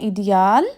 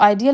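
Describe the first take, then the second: First: It starts with an 'ee' sound, German-style. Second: It starts with an 'eye' sound, English-style. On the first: "German में इसको कहते हैं इडियाल" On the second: "English में इसको आइडियल"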